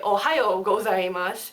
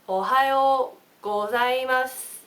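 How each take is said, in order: First: It is said with a foreign accent. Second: It is said slowly with a Japanese accent. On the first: The speaker calls it wrong. "You don't say" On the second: The speaker calls it right. "I'll say it slow for you"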